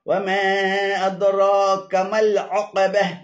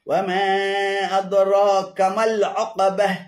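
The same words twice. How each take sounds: No difference in how they are said.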